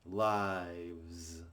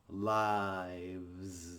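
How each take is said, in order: The two takes are said the same way.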